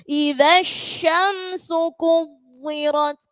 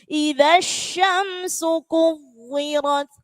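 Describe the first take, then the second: No difference in how they are said.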